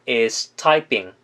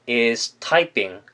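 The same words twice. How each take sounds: No difference in how they are said.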